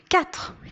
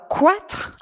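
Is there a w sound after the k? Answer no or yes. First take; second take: no; yes. First: No w sound follows the k. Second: A w sound follows the k. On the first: The speaker calls it right. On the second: The speaker calls it wrong.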